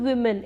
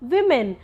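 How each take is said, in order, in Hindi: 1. पहला स्वर 'oo' जैसा बोला जाता है। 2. पहला स्वर 'i' जैसा बोला जाता है। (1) "it's not वुमेन" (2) "it's विमेन"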